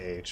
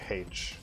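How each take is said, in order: First: The letter is said without an initial h sound. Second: The letter is said with an initial h sound. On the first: This is the American way of saying it. "We just say H" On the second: This is how another person would say it. "We don't say H"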